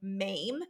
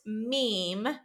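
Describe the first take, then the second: First: The vowel rhymes with game. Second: The vowel rhymes with seam. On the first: The speaker calls it wrong. "I thought it was pronounced like MAME, that rhymes with game" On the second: The speaker calls it right. "but it is pronounced meme"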